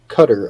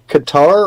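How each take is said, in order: First: It is said to sound like cutter. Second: It is said to rhyme with guitar. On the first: "I've also heard it pronounced Cutter" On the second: "I like Qatar because it sounds like guitar"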